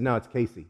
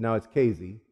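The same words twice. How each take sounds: First: CASEY with an S, KAY-see; outsider's correction. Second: CASEY with a Z, KAY-zee; local correction. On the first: College guy correcting him, Casey as KAY-see. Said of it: "He said". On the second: Insisting to the college guy, Casey with a Z. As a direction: correct it back to Kayzee for Casey. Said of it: "I said". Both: Retold or imitated.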